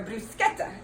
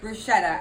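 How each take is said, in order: First: It is pronounced the Italian way. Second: It is pronounced the American way.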